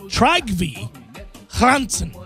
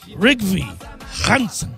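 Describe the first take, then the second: First: The first name begins with a T sound. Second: The first name begins with an R sound. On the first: "his name could be Trygve Hansen" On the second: "I'm not purposely pronouncing the T that starts the name"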